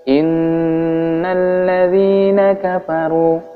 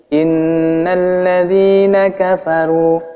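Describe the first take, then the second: The two takes are said the same way.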